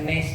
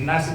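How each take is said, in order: First: The vowel is shifted toward 'e'. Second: The vowel is an open 'a'. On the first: This is a variant reading. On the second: This is the usual reading.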